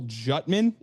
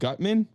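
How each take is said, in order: First: The name begins with a J sound. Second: The name begins with a hard G sound. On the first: The speaker calls it wrong. "he said Cole Jutman instead of Gutman" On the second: The speaker calls it right. "I would be inclined to think it's Gutman"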